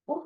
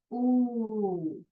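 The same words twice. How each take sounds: First: Brief, abrupt short ओ; short vowel. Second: ओ held as a long oo; long vowel. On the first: Teacher drilling the class, short ओ. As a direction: keep ओ to a quick short oo. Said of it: "ये short". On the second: Teacher drilling the class, long held ओ. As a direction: draw ओ right out. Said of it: "और ये long". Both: Shown as a demonstration.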